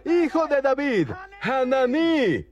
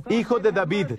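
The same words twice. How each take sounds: First: Grito imitado muy agudo, con la última palabra alargada; clamor más fuerte imitado. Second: Said in the usual way. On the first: Retold or imitated. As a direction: imita a un mendigo que clama con insistencia. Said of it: "él gritaba aún más fuerte". (imitando un grito agudo e insistente) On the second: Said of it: "pero él gritaba aún más fuerte".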